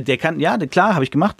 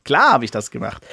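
First: Higher, lightly voiced smug knight; mild mock boasting knight; proud boast. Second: Lightly voiced proud knight, tossing it off; a hint of a smug knight bragging; proud boast. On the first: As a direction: brag it a touch higher. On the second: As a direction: boast a little, pleased with himself. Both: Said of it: "Voll stolz so".

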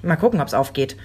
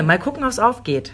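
First: Said in the usual way. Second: "Mal gucken, ob's aufgeht" said higher and with an ironic, knowing lilt; wry repeat. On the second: Shown as a demonstration. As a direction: repeat it teasingly, as a wry warning. ("Mal gucken, ob's aufgeht" höher, ironisch-wissend wiederholt) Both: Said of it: "Das ist ja das Gemeine".

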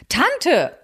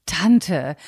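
First: Sharp, higher indignant "Tante"; outraged niece's cry; indignant outcry. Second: Said in the usual way. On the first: Acted. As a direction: call out "Tante" in protest. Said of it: "rief Luise empört". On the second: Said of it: "Luise verdrehte die Augen".

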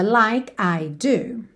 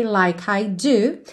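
First: "Like I do" with a short pause after "Like"; small pause. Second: "Like I do" with "like" and "I" run together; linked like I. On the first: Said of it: "Na música, ele dá uma pequena pausa". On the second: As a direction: join "like I" smoothly. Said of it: "você pode juntar like I". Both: Shown as a demonstration.

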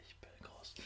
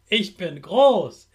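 First: Soft whispered repeat; whispered echo. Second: Said in the usual way. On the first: Shown as a demonstration. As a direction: whisper the line back. Repeat-after-me affirmations.

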